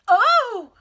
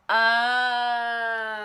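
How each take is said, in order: First: It sounds surprised. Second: It sounds like sudden understanding.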